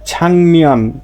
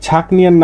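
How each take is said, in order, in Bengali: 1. n-এর আগে একটি নাসিক্য ng ধ্বনি আসে। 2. n-এর আগে একটি কঠিন k ধ্বনি আসে। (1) "এ গিয়কের উচ্চারণটা ক হবে না, হবে কি ইয়ং" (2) "কিন্তু এ ছাকনিয়ন না হয়ে"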